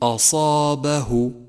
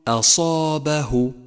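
First: The opening hamza sounds heavy and emphatic. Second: The opening hamza sounds thin and light. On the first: The speaker calls it wrong. "وخطأ أن تقول" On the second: The speaker calls it right. "فرقق الهمزة وفخم الصاد ولا تخلط بينهما، فالصحيح أن تقول"

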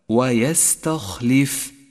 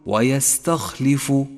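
First: The final f is held with no vowel. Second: The final f is followed by a 'u' vowel. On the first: The speaker calls it right. "اقرأ هذه الكلمة هكذا" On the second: The speaker calls it wrong. "وإياك أن ترفعها بضمة، أي تقول ويستخلف"

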